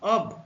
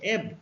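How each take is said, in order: First: The vowel is a rounded 'o' sound. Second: The vowel is a short 'eh' sound. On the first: "যখন এর উচ্চারণ অ হবে" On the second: "যখন এর উচ্চারণ এ"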